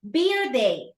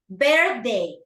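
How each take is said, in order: First: The th sound is dropped, like 'beer day'. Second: The th sound is clearly pronounced, 'birthday'. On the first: It sounds like a day for drinking beer. The speaker calls it wrong. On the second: It means the yearly celebration of one's birth. The speaker calls it right.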